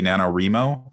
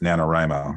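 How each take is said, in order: First: The third syllable sounds like 'ree', as in reading. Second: The third syllable sounds like 'rye', as in writing. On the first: The speaker calls it wrong. "if we pronounce the word writing reading, then it would be" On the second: The speaker calls it right. "since we generally pronounce the word writing writing"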